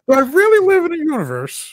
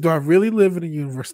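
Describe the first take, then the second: First: It is read in a put-on imitation voice. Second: It is read in the speaker's ordinary voice.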